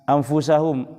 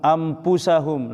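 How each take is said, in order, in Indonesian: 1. Diucapkan dengan bunyi f. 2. Diucapkan dengan bunyi p.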